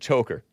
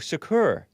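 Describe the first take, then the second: First: The name sounds like the word 'choker'. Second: The name sounds like 'Shakur', as in Tupac. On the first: The speaker calls it wrong. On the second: The speaker calls it right.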